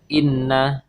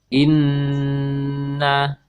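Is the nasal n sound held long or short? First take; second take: short; long. First: The nasal n sound is short, not held. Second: The nasal n sound is held for two beats. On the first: The speaker calls it wrong. "tidak hanya inna" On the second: The speaker calls it right. "tapi disertai dengan ditahan"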